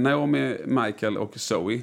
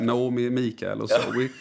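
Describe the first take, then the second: First: The names are said with English pronunciation. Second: The names are said with Swedish regional pronunciation. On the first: "Det är de engelska uttalen" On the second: "Är den kalmaritiska och så"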